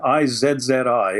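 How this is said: Z is said 'zed', the Canadian way.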